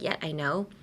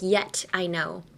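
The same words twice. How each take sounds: First: The T at the end of yet is silent. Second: The T at the end of yet is clearly pronounced. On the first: The speaker calls it right. "if you're going to say it in like one phrase, ... it would probably be silent" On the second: The speaker calls it wrong. "you wouldn't be like"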